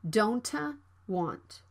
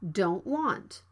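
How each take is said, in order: First: An extra vowel follows the released T. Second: The T is unreleased before the W. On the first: The speaker calls it wrong. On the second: The speaker calls it right. "It can be unreleased"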